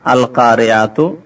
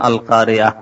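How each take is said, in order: First: The word ends with a full 'tu' syllable. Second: The word ends on a vowel with no 'tu'. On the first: The reciter continues without stopping. "কারিয়াতুন আল যখন হলো তো আল কারিয়াতু হলো" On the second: The reciter stops at the end of the verse. "যখন থামবেন বলবেন আল কারিয়া"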